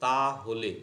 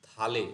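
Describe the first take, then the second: First: The phrase is said in full as two words. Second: The phrase is contracted into one short word.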